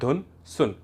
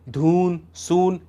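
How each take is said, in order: First: The u vowels are kept short. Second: The u vowels are drawn out long. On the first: The speaker calls it right. "आपने कहा धुन सुन" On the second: The speaker calls it wrong. "ऐसा नहीं कहा"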